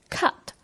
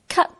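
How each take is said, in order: First: It is said with an English pronunciation. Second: It is said like Cantonese 咳, Cantonese-style. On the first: "这个英语单词cut 原来的发音是cut" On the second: "变成了类似粤语咳嗽的咳的发音cut cut"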